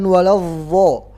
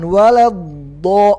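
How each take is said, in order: First: The consonant lets air escape like a z. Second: The consonant is held with no air escaping. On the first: The speaker calls it wrong. "bukan waladdo" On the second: The speaker calls it right.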